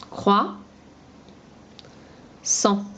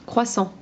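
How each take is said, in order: First: "Croissant" split as "Croix", long pause, "Sang"; syllable by syllable. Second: Said in the usual way. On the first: Shown as a demonstration. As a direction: say "Croix" rising, wait, then "Sang". (« Croix… Sang » : les deux syllabes bien séparées) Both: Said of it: "On supprime la deuxième syllabe".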